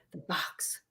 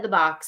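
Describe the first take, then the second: First: Breathless, voiceless whisper of the box; ghostly whisper. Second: Said in the usual way. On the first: Retold or imitated. A ghost echoes Al on the recording, whispered. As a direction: barely breathe it like a spirit voice. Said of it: "and then you hear". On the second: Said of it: "Al said".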